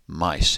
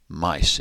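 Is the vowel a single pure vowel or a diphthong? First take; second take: diphthong; diphthong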